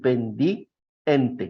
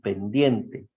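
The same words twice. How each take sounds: First: The i and e fall in separate syllables. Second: The i and e join in one syllable. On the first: The speaker calls it wrong. "no podemos decir pendiente" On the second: The speaker calls it right. "es pendiente"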